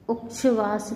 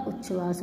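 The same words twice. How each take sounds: First: उच्छ्वास as "uk-shvas"; mispronounced. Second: Said in the usual way. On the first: Shown as a demonstration. Teacher showing students an error, उच्छ्वास with wrong ksh. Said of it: "नहीं होता". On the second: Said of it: "होता है".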